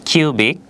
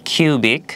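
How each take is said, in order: The two takes are said the same way.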